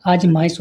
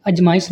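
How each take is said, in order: First: आजमाइश with a long opening aa; correct long vowel. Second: अजमाइश with a short first a; wrong vowel length. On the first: Teacher corrects students, long first vowel. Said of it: "होती है". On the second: Teacher shows students the mistake, short first vowel. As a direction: start अजमाइश on a brief a. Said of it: "नहीं". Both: Shown as a demonstration.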